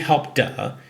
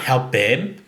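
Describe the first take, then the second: First: The ending is a voiced d sound. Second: The ending is an extra syllable, id. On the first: "it won't be help duh" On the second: "It's not help bid"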